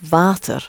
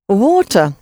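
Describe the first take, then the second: First: The word begins with a v sound. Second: The word begins with a w sound. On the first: "is water in Dutch. The W is pronounced like a V" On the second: "Water in English"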